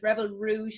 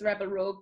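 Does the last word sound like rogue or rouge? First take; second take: rouge; rogue. First: The last word sounds like rouge. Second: The last word sounds like rogue. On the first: The speaker calls it right. "but it's Rebel Rouge Labs" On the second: The speaker calls it wrong. "I used to always pronounce this as Rebel Rogue"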